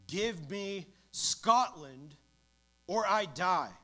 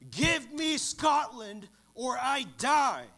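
First: It is said louder and with more fervour. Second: It is thundered out as a passionate cry.

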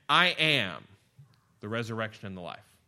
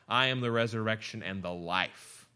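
First: The stress is on "I am". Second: The stress is on "life".

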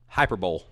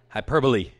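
First: The word ends with a 'bowl' sound. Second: The word ends with an 'ee' sound. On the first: The speaker calls it wrong. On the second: The speaker calls it right.

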